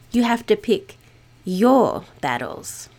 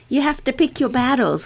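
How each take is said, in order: First: The word your carries the stress. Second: The word pick carries the stress. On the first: Fight the battles you are particularly called to. "putting the emphasis instead on your" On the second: You must choose only a few causes to fight for. "we usually put the emphasis on pick"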